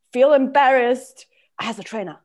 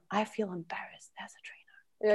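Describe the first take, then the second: First: Said in the usual way. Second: Hushed, breath-only whisper; same words dropped to a secretive whisper; whispered confession. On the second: Acted. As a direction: whisper it as an embarrassed admission.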